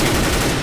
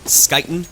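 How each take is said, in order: First: The name begins without an sk sound. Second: The name begins with an sk sound. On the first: The speaker calls it right. "as far as I've been told, it's Kuten" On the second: The speaker calls it wrong. "it's not Skyten"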